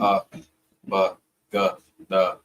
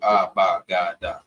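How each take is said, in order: First: The syllables end in a short 'uh' vowel. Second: The syllables end in an open 'ah' vowel. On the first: The speaker calls it right. "More of a uh sound versus an ah" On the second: The speaker calls it wrong. "we see that A, so automatically we're like ah"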